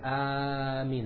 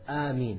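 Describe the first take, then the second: First: The first vowel is stretched out much longer. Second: The first vowel is held for two beats only. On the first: The speaker calls it wrong. "You're not allowed to make it Ameen" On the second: The speaker calls it right. "The first alif should be two harakas"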